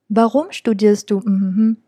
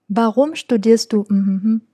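The two takes are said the same way.

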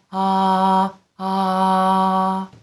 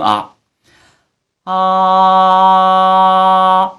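First: The voice has audible breath mixed into it. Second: The voice is full and clear without air. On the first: "气声啊啊啊啊" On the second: "真声啊啊，很实在，没有气息感"

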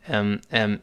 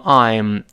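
First: It is unstressed and reduced to m. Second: It is stressed and said in full. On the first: "轻读时...读成m，一带而过就好了" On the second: "重读时读成I'm"

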